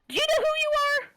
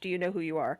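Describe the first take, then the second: First: It is said in a very high-pitched voice. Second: It is said in a normal-pitched voice.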